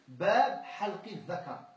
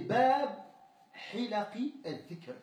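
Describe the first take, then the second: First: It is read with the vowels halqi dhakar. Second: It is read with the vowels hilaqi al-dhikr. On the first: It names a chapter on shaving the private parts. The speaker calls it wrong. "comment il l'a lu? Bab halqi dhaka. Non" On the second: It names a chapter on study circles. The speaker calls it right. "c'était Bab Hilaqi al-Dhikr, le chapitre des cercles d'études"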